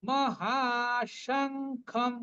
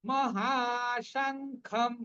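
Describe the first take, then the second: No difference in how they are said.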